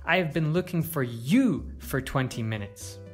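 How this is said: The stress is on the word you. It was this person, not someone else, being sought. "To stress you"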